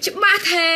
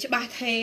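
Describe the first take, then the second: First: Calling out. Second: Low, soft check; quiet repeat. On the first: Seller asks viewers if the stream is clear, calling out. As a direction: call out to check the connection, stretching the end. Checking the stream after lag. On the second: Seller checks the lagging stream once more, quietly. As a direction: repeat the question softly and lower, as if to yourself. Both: Real, not acted.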